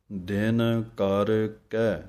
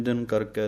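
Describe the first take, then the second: First: ਦਿਨ ਕਰ ਕੈ slowly, each word apart; separate words. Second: ਕਰਕੇ run together with e, not ਕੈ; the wrong quick ਕਰਕੇ; wrong merged. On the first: Teacher showing each word read separately. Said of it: "ਵੱਖਰੇ ਵੱਖਰੇ ਪੜ੍ਹਨੇ ਹਨ". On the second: Teacher showing the mistake to avoid. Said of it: "ਨਹੀਂ ਕਹਿ ਦੇਣਾ". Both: Shown as a demonstration.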